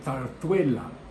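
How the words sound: It is said with a Spanish accent.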